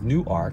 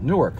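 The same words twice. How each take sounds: First: It is said the local Delaware way. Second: It is said the New Jersey way. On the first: It names the town in Delaware. "that's how they pronounce it in Delaware" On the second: It names the city in New Jersey. "If you're from New Jersey, you have a similar name"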